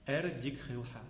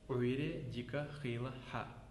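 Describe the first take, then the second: First: Syllables are dropped and run together. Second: Every syllable is said in full.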